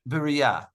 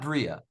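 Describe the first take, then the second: First: A short vowel separates the b and the r. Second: The b and the r run together, no vowel. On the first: The speaker calls it right. "the correct Hebrew pronunciation would be" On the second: The speaker calls it wrong. "but not bria"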